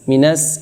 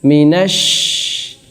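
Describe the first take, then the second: First: The word ends with a plain s sound. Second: The word ends with a sh sound. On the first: The speaker calls it wrong. "jangan minas. Minas ini sin kecil" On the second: The speaker calls it right. "Nah ini shin besar ya"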